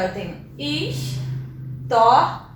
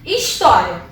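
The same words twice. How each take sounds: First: História slowed right down and split into syllables; separating the syllables of história slowly. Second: Said in the usual way. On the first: Shown as a demonstration. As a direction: draw out each syllable of história. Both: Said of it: "Quando eu separo a sílaba de história".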